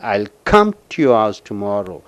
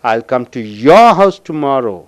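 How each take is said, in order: First: The word come is stressed. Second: The word your is stressed. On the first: The speaker will come without fail. "கம்முக்கு அழுத்தம் கொடுக்கும் பொழுது" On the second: The speaker will visit only this person's house. "I will come only to your house tomorrow"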